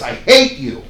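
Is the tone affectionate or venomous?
venomous. It is said with bitter, hostile venom. It expresses real hatred. "with great venom in your voice"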